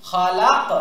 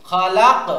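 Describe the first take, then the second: Both takes have the same delivery.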